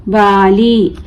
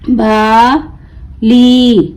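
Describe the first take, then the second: First: Said in the usual way. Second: Bali very slow, long बा, pause, long ली; broken into syllables. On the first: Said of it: "मिलाकर पढ़ें". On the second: Shown as a demonstration. Teacher breaking the word for learners, बा... ली stretched apart. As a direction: draw out Bali as two separate syllables. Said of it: "तोड़ तोड़ कर पढ़ूंगी".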